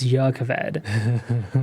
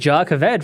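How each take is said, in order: First: The word begins with a Y sound. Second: The word begins with a J sound. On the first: The speaker calls it right. "pretty much all nouns that start with a J are y. So I was like, oh, so I guess it's" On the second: The speaker calls it wrong. "I was calling it Jacaved for a very long time"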